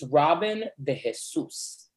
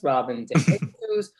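First: Jesus is stressed on its last syllable. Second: Jesus is stressed on its first syllable. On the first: The speaker calls it right. "The accent de is Jesus. On you, so it's the last syllable" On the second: The speaker calls it wrong. "As opposed to Robin D. Jesus"

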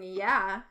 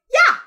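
First: It is said in a normal, calm voice. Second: It is said shrill, high and loud.

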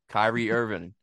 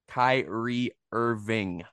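First: The words are slurred together. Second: The words are said clearly and separately. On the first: The speaker calls it wrong. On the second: The speaker calls it right.

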